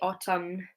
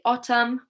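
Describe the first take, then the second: First: The final N sound is pronounced. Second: The word ends with an M sound. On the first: The speaker calls it wrong. "We don't say autumn" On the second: The speaker calls it right. "We just say autumn with an M"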